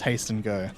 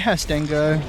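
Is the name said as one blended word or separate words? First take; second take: separate; blended. First: The name is said as separate words. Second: The name runs together as one word. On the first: The speaker calls it right. "Oh, of course it is" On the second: The speaker calls it wrong. "Pronouncing that Hastengo"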